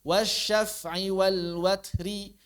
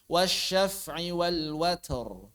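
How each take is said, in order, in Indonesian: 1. Kata terakhir diakhiri dengan vokal pendek. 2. Kata terakhir diakhiri dengan konsonan mati.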